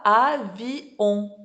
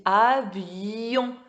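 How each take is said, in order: First: AVION chopped into a, vi, on, no glide; syllables split apart. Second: AVION with a long y sliding into on; glided yon ending. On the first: Teacher showing the wrong reading, AVION split into a-vi-on. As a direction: say AVION slowly as three separate beats, a-vi-on. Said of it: "on lit pas avion". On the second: Teacher showing the correct reading, AVION with gliding yon. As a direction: stretch AVION slowly as a-viii-yon, joined by the glide. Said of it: "On doit faire le ye". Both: Shown as a demonstration.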